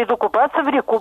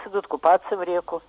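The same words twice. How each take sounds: First: Реку stressed on the final у; stress on last syllable of реку. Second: Реку stressed on the е; stress on first syllable of реку. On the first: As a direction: say реку with the beat on ку. (ударение на последний слог: реку) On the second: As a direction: say реку with the beat on ре. (ударение на первый слог: реку) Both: Shown as a demonstration. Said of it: "надо говорить".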